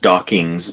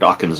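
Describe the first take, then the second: First: The name ends with an 'ngs' sound. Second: The name ends with an 'ns' sound. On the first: The speaker calls it wrong. "mispronounced it as Dawkins" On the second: The speaker calls it right. "it ends just with N S, not N G S"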